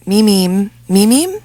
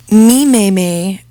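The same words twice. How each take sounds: First: "meme" repeated as "meem" with rising end; meme pronounced. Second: "Meme" said like "meem", rhyming with green; meme pronounced. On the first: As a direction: drill "meme" rhyming with green. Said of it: "should be pronounced to rhyme with green". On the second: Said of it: "should be pronounced meme". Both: Shown as a demonstration.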